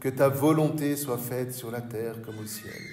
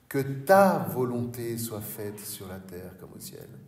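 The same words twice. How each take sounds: First: The word 'ta' carries no special emphasis. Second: The word 'ta' is strongly emphasized. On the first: The speaker calls it wrong. "En général, nous disons" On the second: The speaker calls it right. "il faudrait mieux prononcer les choses comme ceci"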